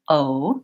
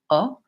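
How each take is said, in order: First: The vowel is held longer and glides. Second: The vowel stays a single steady sound. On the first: "In English, we have two sounds with that vowel. So we glide from O to U" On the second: "in Spanish, it's more of an O, O, where there's just one sound"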